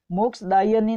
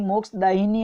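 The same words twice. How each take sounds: First: मोक्षदायिनी said "moksh-daa-YA-ni"; yani ending. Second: मोक्षदायिनी said "moksh-daa-YI-ni"; an i before "ni" in मोक्षदायिनी; yini ending. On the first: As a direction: use ya, not i, in मोक्षदायिनी. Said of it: "मोक्षदायिनी नहीं". (मोक्षदायिनी को "मोक्षदायनी" बोलें) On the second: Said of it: "मोक्षदायिनी होता है". (मोक्षदायिनी में "यि" बोलें) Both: Shown as a demonstration.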